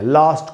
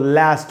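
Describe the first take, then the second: First: The vowel is long and back, like father. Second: The vowel is short and front, like cat. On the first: This is the British pronunciation. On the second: This is the American pronunciation.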